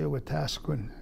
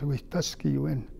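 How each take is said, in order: First: The name is said the anglicized city way. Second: The name is said the original Cree way. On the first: This is how most people name the city. The speaker calls it wrong. "it's mispronounced, they say Wetaskiwin" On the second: This is the original Cree name. The speaker calls it right. "but it says Wihtaskiwen"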